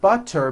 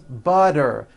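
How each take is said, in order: First: The middle consonant is a clear T sound. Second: The middle consonant is a voiced D sound.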